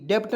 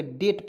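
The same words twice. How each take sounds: First: डेप्ट with a P sound before T; wrong pronunciation, extra consonant. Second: डेट with nothing before the T; silent B. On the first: Teacher shows the reading to avoid, डेप्ट with extra consonant. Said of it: "डेप्ट नहीं पढ़ेंगे". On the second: Teacher gives learners the correct डेट with silent B. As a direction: go straight from vowel to T in डेट. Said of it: "डेट पढ़ेंगे". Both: Shown as a demonstration.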